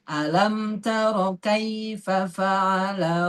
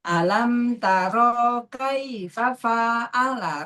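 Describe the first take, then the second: First: The vowels in taro and fa'ala are kept short. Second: The vowels in taro and fa'ala are drawn out. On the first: The speaker calls it right. "rohnya nggak panjang, fa-nya nggak panjang" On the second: The speaker calls it wrong. "memanjangkan sesuatu yang tidak panjang"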